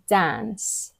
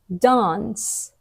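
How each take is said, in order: First: The vowel is a flat, front a sound. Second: The vowel is a long, open ah sound. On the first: The speaker calls it wrong. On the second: The speaker calls it right.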